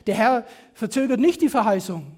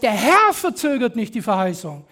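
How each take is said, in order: First: The main stress falls on nicht, not Herr. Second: The main stress falls on Herr. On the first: There is no delay at all. The speaker calls it wrong. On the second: It is not the Lord who causes any delay. The speaker calls it right.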